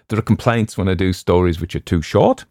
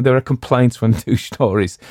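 First: Said in the usual way. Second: Laughing. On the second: Real, not acted.

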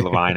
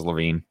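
First: LaVine said "luh-VINE", long "eye"; LaVine rhyming with vine. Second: LaVine said "luh-VEEN", long "ee"; LaVine rhyming with seen. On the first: Analyst giving his own pronunciation, LaVine said as luh-VINE. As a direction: make the end of LaVine sound like vine. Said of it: "I say LaVine". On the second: Analyst quoting everybody else's pronunciation, LaVine said as luh-VEEN. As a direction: make the end of LaVine sound like veen. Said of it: "everybody else says LaVine". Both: Shown as a demonstration.

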